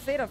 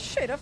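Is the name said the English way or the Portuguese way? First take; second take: English; Portuguese. First: The name is said with English pronunciation. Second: The name is said with Portuguese pronunciation. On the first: "Era pra falar Xerath, né? Em inglês" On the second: "Eu chamo de Xerath. Eu estou falando em português"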